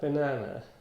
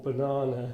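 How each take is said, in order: First: It is said in an American accent. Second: It is said in a British accent.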